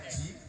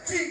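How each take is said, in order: First: The word is said softly and quietly. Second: The word is called out loudly. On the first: The person addressed has only done umrah, the small hajj. The speaker calls it right. "manggilnya pelan aja" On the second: The person addressed has done the full hajj. The speaker calls it wrong. "nggak usah ji, nggak usah begitu"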